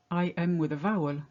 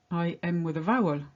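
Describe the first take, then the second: No difference in how they are said.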